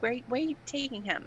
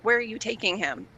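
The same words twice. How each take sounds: First: Put-on mom's Long Island accent, softer and higher. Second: Said in the usual way. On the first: Daughter imitates her mom asking about the visiting friend, Long Island accent. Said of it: "Long Island accent". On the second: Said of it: "my mom was like".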